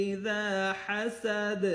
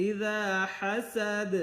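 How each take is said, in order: No difference in how they are said.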